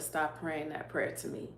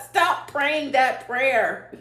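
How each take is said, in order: First: Soft, gentle rebuke, quietly; hushed voice of God. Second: Slow and firm, higher and louder; emphatic God quote. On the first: Speaking as God to her in prayer, hushed. Retelling God's words in prayer. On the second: God telling her to stop the prayer, slow and emphatic. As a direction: hammer out each word as a mock command. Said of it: "I know God don't talk like this". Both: Retold or imitated.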